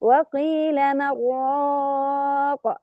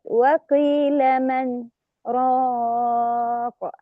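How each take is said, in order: First: Slow recitation, نون of من merged into راق; Shu'ba's reading with idgham. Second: Slow recitation, brief silent stop after من before راق; Hafs's reading with sakt. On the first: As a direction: recite من راق as one with merging. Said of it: "يقرأ بالإدغام بدون سكت". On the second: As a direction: stop on من without breath, then راق. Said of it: "بالسكت". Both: Shown as a demonstration.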